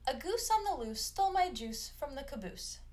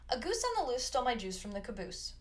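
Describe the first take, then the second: First: It is said at a normal speed. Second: It is said very fast.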